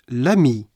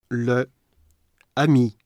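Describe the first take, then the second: First: The vowel of 'le' is dropped before 'ami'. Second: The vowel of 'le' is kept before 'ami'.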